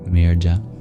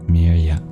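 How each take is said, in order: First: The middle consonant is a stop closure. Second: The middle consonant is a smooth y glide. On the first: "If it represents a palatal plosive" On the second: "if it represents a palatal semivowel"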